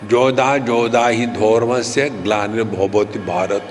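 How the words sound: It is said in a Bengali accent. The speaker calls it wrong.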